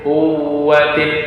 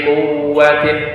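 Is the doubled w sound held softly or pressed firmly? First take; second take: held; held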